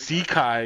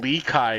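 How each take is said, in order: First: The name begins with a Z sound. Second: The name begins with an L sound. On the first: This is how the speaker has been saying it. The speaker calls it wrong. "So I call him" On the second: This is how the name is supposedly meant to be said. The speaker calls it right. "apparently it's pronounced"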